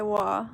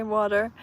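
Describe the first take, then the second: First: "wa" with no T and no R sound; clipped-off water. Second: "water" in full, both syllables, R at the end; own pronunciation. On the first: Streamer showing how she doesn't say water, cut down to "wa". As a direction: say just "wa", dropping the end of water. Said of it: "I don't say wa". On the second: Streamer showing viewers how she says it, "water" in full. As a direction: say "water" with its second syllable and final R. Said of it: "I say water". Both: Shown as a demonstration.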